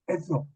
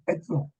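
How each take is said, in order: First: The two consonants merge into a single sound. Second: The two consonants merge into a single sound.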